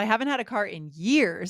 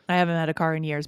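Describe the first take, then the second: First: The voice is lively with varied intonation. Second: The voice is flat in a monotone. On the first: The speaker calls it right. "we're really emphasizing, as you said, we're using our intonation here" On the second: The speaker calls it wrong. "It would be strange to say this in a monotone. Boring, right?"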